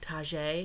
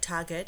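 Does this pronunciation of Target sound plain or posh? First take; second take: posh; plain. First: It is said in a posh, fancy-sounding way. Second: It is said in a plain, ordinary way. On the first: It is jokingly treated as an upscale store. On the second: It is just an everyday store.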